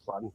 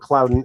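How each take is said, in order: First: The name is said with a Midwestern pronunciation. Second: The name is said with a standard pronunciation. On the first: The speaker calls it wrong. "I'm from the Midwest, so it's Clauden" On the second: The speaker calls it right. "if you want to pronounce it more properly"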